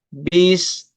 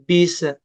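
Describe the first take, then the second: First: The s stops cleanly with no vowel. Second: The s bounces with a short vowel after. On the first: The speaker calls it right. "betul-betul dimatikan" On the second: The speaker calls it wrong.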